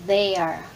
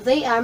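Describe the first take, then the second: First: THEY ARE merged into one word, they're; contracted form. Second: THEY ARE as two words; full form. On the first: Teacher showing what they are becomes, contracted. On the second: Teacher showing beginners the long form, full form. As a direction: keep THEY and ARE distinct. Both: Shown as a demonstration.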